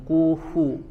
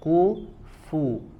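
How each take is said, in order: First: The lips stay rounded so the f is weak. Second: The lips reset so the f is crisp. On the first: The speaker calls it wrong. "enggak langsung ku, fu... tidak sempurna makhraj huruf fa-nya" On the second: The speaker calls it right. "harus dikembalikan dulu"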